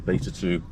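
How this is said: Beta is said in an American accent.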